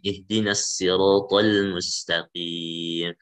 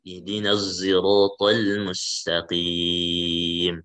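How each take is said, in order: First: The s in sirat is a light plain s. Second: The s in sirat blends toward a z sound. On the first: "yang kedua dengan sin" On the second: "yang ketiga dengan ismam"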